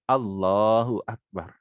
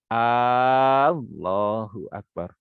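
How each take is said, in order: First: The opening vowel of Allahu is short. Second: The opening vowel of Allahu is drawn out. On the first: The speaker calls it right. "Tidak boleh dipanjangkan di uh, lafaz harokat huruf hamzahnya" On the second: The speaker calls it wrong. "Kalau kita panjangkan hamzahnya menjadi"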